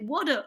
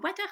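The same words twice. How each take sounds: First: It is said with a British accent. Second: It is said with a French accent. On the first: The speaker calls it right. "c'est water" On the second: The speaker calls it wrong. "c'est pas euh, water"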